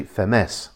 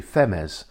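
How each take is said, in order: First: Femes as feh-MESS; stress on second E. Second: Femes as FEM-ez, stressed on the first E; wrong stress. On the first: Guide giving the actual town name, second syllable stressed. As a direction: push the last syllable of Femes. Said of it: "accent there is on the second E". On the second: Guide showing the unaccented reading, first syllable stressed. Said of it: "Otherwise, it would be". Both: Shown as a demonstration.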